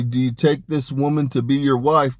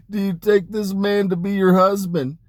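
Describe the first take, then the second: First: Said in the usual way. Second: High, laughing wedding question; high and giddy at the courts of heaven; giddy laughing vow. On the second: Retold or imitated. Laughing while retelling Lilith's vow.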